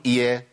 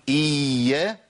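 First: إيا said short with one quick ya; single light ya. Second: إيا with the opening ee held long and slow; drawn-out ya. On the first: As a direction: cut إيا down to a single unstressed y. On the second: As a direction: stretch إيا slowly on a long ee glide. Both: Shown as a demonstration. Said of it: "وأجيب ياء واحدة".

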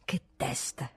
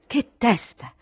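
First: Unvoiced, lower whisper to himself; whispered muttering. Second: Louder, higher outburst; exasperated exclamation. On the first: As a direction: breathe it to yourself, no voice. (sussurrato tra sé) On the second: Acted. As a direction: burst out in annoyance. (esclamazione stizzita ad alta voce) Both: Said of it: "continuando a parlar solo".

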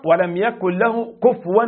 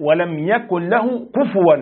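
First: "كفوا" with the fa silenced, kufwan read kuf'an; "كفوا" said with a still fa, the wrong way; wrong sukun on the fa. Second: "كفوا" said kufuwan, fa with a clear u, slowly; "كفوا" with the fa voiced fully, slow and careful; correct damma on the fa. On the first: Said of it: "بتسكين الفاء، وهذا خطأ". (كفوا بتسكين الفاء، خطأ) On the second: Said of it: "والواجب ضم الفاء". (كفوا بضم الفاء، ببطء ووضوح) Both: Shown as a demonstration.

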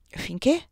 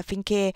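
First: "Finché" rising high as a question; questioning echo. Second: "finché" left hanging, unfinished; trailing off. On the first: Her highness pressing the colonel, "Finché" as a rising question. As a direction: prompt him with a lifted "Finché". Prompts him to finish. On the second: Colonel hesitating before his highness, "finché" trailing off. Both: A narrator's reading.

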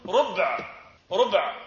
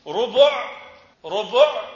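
First: ربع as rub', no vowel after b; sukun on ba. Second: ربع as rubu', u after the b; two clear loud syllables in ربع, ru-bu'; damma on ba. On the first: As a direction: close ربع on b plus ayn, one syllable. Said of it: "بوضع السكون على الباء". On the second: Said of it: "بضم الباء". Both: Shown as a demonstration.

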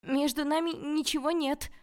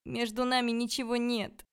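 First: High, loud, insistent denial; loud shouting. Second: High, pleading denial; plaintive shout. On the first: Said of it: "закричала я ещё громче". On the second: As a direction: cry the denial out pitifully. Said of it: "крикнула я жалобно". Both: A narrator's reading.

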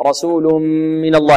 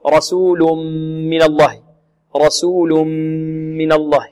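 First: رسول من الله with a held hum on the m; measured nasal merge. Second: Imitating students' clamped m in رسول من الله; over-pressed lips. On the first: Shown as a demonstration. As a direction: merge into the m and hum without pressing the lips. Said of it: "نأتي بالغنة بقدر الغنة". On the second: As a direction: squeeze the lips on a long forced m hum, as a mistake. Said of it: "ولا نكز الشفتين".

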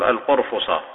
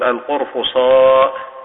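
First: القرفصاء with a short clipped final a, al-qurfuṣa; short final vowel. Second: القرفصاء ending drawn out in a long ā'; long final vowel. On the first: Teacher showing the short form, القرفصاء clipped. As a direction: end القرفصاء short, no long ā. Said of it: "ويجوز القصر تقول". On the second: Teacher showing the long-vowel form, القرفصاء with final ā'. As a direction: stretch the end of القرفصاء. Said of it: "ويجوز المد تقول". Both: Shown as a demonstration.

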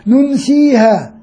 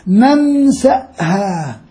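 First: ننسيها slowly, long ي and no glottal stop; ننسيها said slowly with the ya, not the hamza. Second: ننسأها drawn out slowly with a clear glottal stop before ها; ننسأها said very slowly, hamza stressed. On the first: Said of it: "هو بالياء مش بالهمزة". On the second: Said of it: "بالهمزة". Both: Shown as a demonstration.

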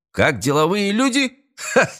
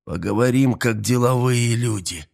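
First: High incredulous mocking echo; mock the phrase, rising high, then a "ha"; scoffing laugh. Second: Said in the usual way. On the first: A narrator's reading. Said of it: "Эстебан рассмеялся". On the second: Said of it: "раздался голос Туми".

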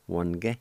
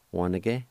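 First: "one again" squeezed to two syllables, wan-ge; silent I. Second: "one again" as three syllables, wa-ni-ge; full pronunciation. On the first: Teacher recapping the short way for learners, middle vowel silent. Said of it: "the I with the N is silent". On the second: Teacher recapping the long way for learners, middle vowel kept. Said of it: "either way". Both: Shown as a demonstration.

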